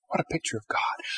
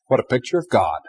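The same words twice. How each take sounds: First: Whispered "What a picture of God." with hushed wonder; awed whisper. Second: Said in the usual way. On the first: Shown as a demonstration. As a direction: breathe "What a picture of God." almost to yourself. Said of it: "repeated as whisper". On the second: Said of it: "repeated softly".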